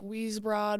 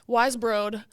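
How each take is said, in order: First: The first syllable sounds like 'wheeze'. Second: The first syllable sounds like 'wise'. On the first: This is how other people mispronounce it. The speaker calls it wrong. "people always say it wrong. I hear like Weesbrod" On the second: This is how the family says it. The speaker calls it right. "But yeah, Wisebroad"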